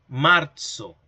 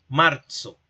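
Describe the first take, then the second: The two takes are said the same way.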